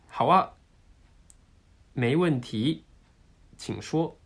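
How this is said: It is broken into separate, over-crisp chunks. The speaker calls it wrong. "自分のくっきりがちょっとおかしくて3 つの単語になっちゃうな"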